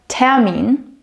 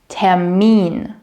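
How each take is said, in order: First: The stress is on the first syllable. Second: The stress is on the second syllable. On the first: The speaker calls it wrong. "Not Termin" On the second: The speaker calls it right. "the stress is on the second part"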